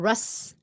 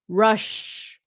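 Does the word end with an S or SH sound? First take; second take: S; SH. First: The word ends with an S sound. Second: The word ends with an SH sound. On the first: The speaker calls it wrong. "Chứ không phải là Rush" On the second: The speaker calls it right. "S H sound"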